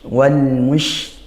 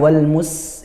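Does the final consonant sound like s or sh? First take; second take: sh; s. First: The last consonant is a spread sh sound. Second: The last consonant is a plain s sound. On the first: The speaker calls it right. "maka ini ash ash ya, seperti itu ya" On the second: The speaker calls it wrong. "jangan wal mus, itu sin"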